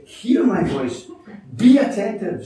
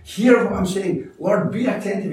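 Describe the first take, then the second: First: The preacher stresses the psalmist's plea to God, rising hard on "be attentive". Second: The preacher repeats the plea, punching "Hear" and then "be"; stress on hear and be. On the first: Urgent plea to God, "be attentive" higher and louder. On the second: Repeated plea to God, punching "Hear" and "be attentive". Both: Shown as a demonstration. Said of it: "So he uses two different words".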